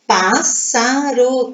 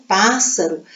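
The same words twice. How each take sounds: First: "Pássaro" slowly split into separate syllables. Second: Said in the usual way. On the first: Shown as a demonstration. Teacher showing pupils three syllables, "Pássaro" slowly syllabified. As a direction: draw out "Pássaro" one syllable at a time.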